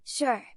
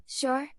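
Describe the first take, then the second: First: Sure. said with a settled falling tune; a flat confirmation, Sure. falling; firm confirming fall. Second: Sure? asked on a sharp upward rise; doubtful question, Sure? lifting high at the end; a surprised check, Sure? rising. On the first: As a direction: answer it, Sure. dropping down to close. Two takes of sure, answer. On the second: Two takes of sure, question. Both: Acted.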